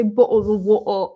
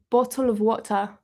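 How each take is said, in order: First: Put-on caricatured British accent with swallowed t's; American's cartoon take on British speech; mock British accent. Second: Restrained British accent, not caricatured; understated attempt at British pronunciation; more accurate British accent. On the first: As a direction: drop the t's like an exaggerated Brit. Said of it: "nobody said it like that". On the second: Shown as a demonstration. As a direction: say it in a careful, believable British accent. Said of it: "it's probably more accurate to be like".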